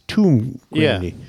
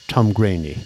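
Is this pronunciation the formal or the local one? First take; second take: formal; local. First: The name is said the careful formal way. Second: The name is said the casual local way. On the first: The speaker is being polite and proper. "the kind of polite way of saying it is Tumgraney" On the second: The speaker is from the area. "locals tend to say Tumgraney"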